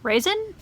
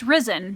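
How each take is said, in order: First: The name sounds like the word raisin. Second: The name sounds like the word risen. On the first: The speaker calls it wrong. "listen horrified as I call her Raisin" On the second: The speaker calls it right. "it's Risen by general consensus"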